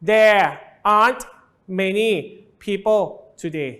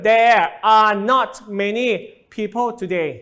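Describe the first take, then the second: First: "Are not" is contracted into one syllable. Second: "Are not" is said as two full words. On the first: "ครูต้องการย่อครับ...ให้มันออกเสียงง่ายขึ้นก็เลยกลายเป็น" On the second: "ถ้าครูพูดเต็มๆก็คือ"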